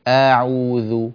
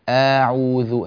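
The two takes are said the same way.

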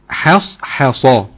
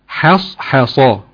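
Both takes have the same delivery.

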